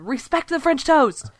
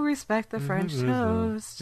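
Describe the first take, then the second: First: The phrase is shouted loudly. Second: The phrase is said quietly and flatly. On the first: The speaker calls it right. "you gotta yell it when you say that one" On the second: The speaker calls it wrong. "You can't just Say, oh"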